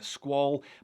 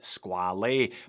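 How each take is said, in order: First: The name is said the French way. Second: The name is said the Italian way. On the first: "Squale means shark in French. This is a Swiss brand, so we should all be pronouncing it Squale" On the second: "I call it Squale"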